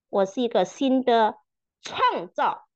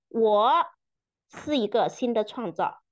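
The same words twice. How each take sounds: First: The stress falls on the word 创造. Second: The stress falls on the word 我. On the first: "强调每一个词" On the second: "强调每一个词"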